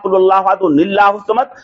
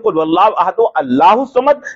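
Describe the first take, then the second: First: Ahad runs straight on into nillahu. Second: It stops after ahad before allahu. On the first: Unfamiliar listeners may find this reading strange. "ये निल्ला कहाँ से आ गया?" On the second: This is the familiar way people recite it. "अब तक तो हम पढ़ते थे"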